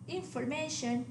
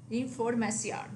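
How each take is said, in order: First: Information ending in MAY-shun; English information, stress on MA; English pronunciation. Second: Información ending in mah-SYON; Spanish información, stress on the final o; Spanish pronunciation. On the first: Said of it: "the English word". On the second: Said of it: "accent on the O". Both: Shown as a demonstration.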